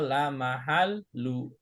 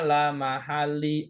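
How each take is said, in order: First: The word ends with a u vowel. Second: The word ends with an i vowel. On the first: "nggak boleh dibaca" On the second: "nggak boleh dibaca"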